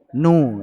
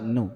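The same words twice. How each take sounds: First: The final vowel is sounded clearly and fully. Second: The final vowel is sounded faintly and briefly. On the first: The speaker calls it wrong. "ini jelas. Itmam ini" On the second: The speaker calls it right. "Yang betul nu"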